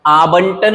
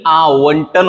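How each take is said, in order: First: आवंटन said as "aa-bantan". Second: आवंटन said slowly as "aa-vantan"; clear व. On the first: Teacher recapping the mistake, आवंटन with b. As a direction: put a b in आवंटन. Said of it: "आवंटन नहीं". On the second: Teacher recapping, आवंटन slow with v sound. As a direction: round the v/w in आवंटन. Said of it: "आवंटन होता है". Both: Shown as a demonstration.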